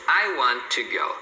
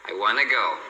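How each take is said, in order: First: The t sounds in 'want to' merge into one. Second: 'Want to' is reduced further to 'wanna'. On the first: "olha só como é que fica bem mais fácil assim" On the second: "ela reduz ainda mais e você vai ouvir as pessoas falando"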